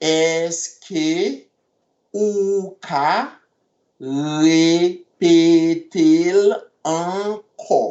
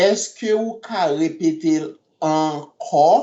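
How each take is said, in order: First: Èske ou ka repete l ankò in slow separate chunks. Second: Said in the usual way. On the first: Shown as a demonstration. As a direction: pause between each piece.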